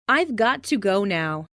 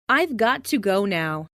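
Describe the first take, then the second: No difference in how they are said.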